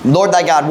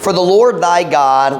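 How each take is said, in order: First: Said in the usual way. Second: Deliberate scripture reading; read slowly. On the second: Shown as a demonstration. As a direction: lean on each word of the verse. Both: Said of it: "Let's read this slowly".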